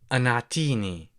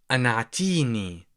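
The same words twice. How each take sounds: The two takes are said the same way.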